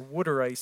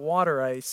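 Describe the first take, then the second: First: The phrase is said in a local accent. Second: The phrase is said in a plain accent.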